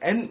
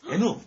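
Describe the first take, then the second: First: The letter ends on a plain n sound. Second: The letter ends with an added u vowel. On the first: This is the English way that was never taught. The speaker calls it right. "N 이렇게 배운 적이 없다니까" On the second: This is the Japanese-style way that was taught. The speaker calls it wrong. "일본식으로 배웠어요"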